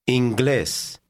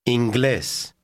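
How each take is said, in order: Both takes have the same delivery.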